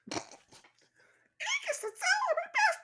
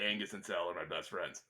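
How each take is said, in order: First: Sped-up squeaky high chipmunk voice; pitched way up like a cartoon chipmunk. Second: Said in the usual way. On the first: Shown as a demonstration. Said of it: "pitch up your yak back so it sounds like you're a chipmunk". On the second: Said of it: "Could you actually pitch up your yak back".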